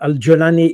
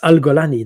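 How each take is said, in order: First: The name is said in the standard pronunciation. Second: The name is said in an Egyptian pronunciation. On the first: "is the, the the way to pronounce it" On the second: "if you pronounce it the Egyptian way"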